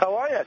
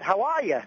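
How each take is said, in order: First: It has only a mild Boston accent. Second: It has a strong Boston accent.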